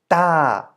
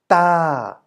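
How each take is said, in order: Both takes have the same delivery.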